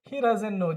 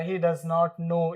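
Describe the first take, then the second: First: Does and not merge into one short word. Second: Does and not are said as separate words. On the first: "डजन पढ़ेंगे" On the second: "इतना अलग अलग बोलते"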